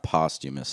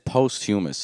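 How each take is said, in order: First: The middle part sounds like 'chum'. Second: The middle part sounds like 'human'. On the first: The speaker calls it right. "It's not posthumous" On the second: The speaker calls it wrong. "I know it's the incorrect to say it"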